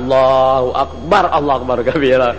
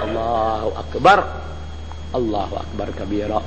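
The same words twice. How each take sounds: First: Almost no pause follows the first phrase. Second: A calm, noticeable pause follows the first phrase. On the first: It sounds abrupt and startling. The speaker calls it wrong. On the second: The prayer is recited with feeling. The speaker calls it right. "tapi diam sebentaran. Berarti pakai perasaan"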